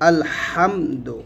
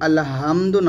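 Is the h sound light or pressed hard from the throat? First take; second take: pressed; light. First: The h sound is pressed hard from the throat. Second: The h sound is light and soft. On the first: The speaker calls it right. "হা একটু চাপ দিয়ে আলহামদু" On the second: The speaker calls it wrong. "আলহামদু না বলে"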